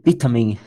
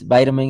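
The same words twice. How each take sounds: First: It is said with a British pronunciation. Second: It is said with an American pronunciation. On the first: "and you say it's" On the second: "in United States it's"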